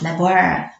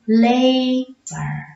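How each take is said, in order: First: The first vowel is short. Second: The first vowel is long, like its letter name. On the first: The speaker calls it wrong. "not labor" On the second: The speaker calls it right. "The vowel says its name"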